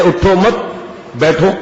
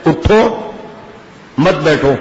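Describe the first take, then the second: First: اٹھو مت run together, pause, then بیٹھو; pause after مت. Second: اٹھو rising, pause, then مت بیٹھو together; pause after اٹھو. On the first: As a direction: break after مت, leaving بیٹھو alone. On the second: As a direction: break after اٹھو, keep مت joined to بیٹھو. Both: Shown as a demonstration. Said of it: "ترجمہ غلط ہو گیا".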